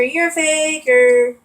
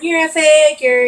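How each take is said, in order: First: "you're a faker" drawn out slowly, stress on "you're"; slower taunt. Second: Taunting. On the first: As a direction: repeat the jab, slower and heavier. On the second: Retold or imitated. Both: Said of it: "my dad just kept saying".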